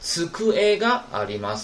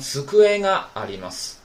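First: The が starts with a plain hard g sound. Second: The が starts with a nasal ng sound.

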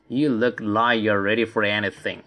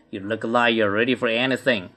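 First: The sentence is read at a slower pace. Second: The sentence is read at a faster pace.

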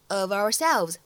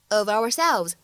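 First: The two words are linked smoothly together. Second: The same.

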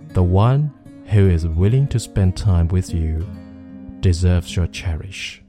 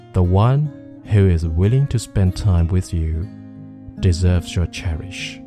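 The two takes are said the same way.

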